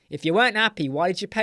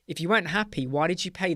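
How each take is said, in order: First: It is said in an annoyed, harsh tone. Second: It is said in a calm, polite tone. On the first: The speaker is openly frustrated with the client. The speaker calls it wrong. "Don't say it like how I'm saying it" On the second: The speaker makes the point tactfully. The speaker calls it right. "there are things you can say to them in a nice way"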